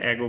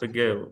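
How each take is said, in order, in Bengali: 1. প্রথম স্বরধ্বনিটি একটি পূর্ণ, স্পষ্ট স্বরধ্বনি। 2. প্রথম স্বরধ্বনিটি একটি দুর্বল শোয়া। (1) "তেমন এটা অ্যাগো বলবো না" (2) "ঠিক ওখানে শোয়া সাউন্ড আছে তো"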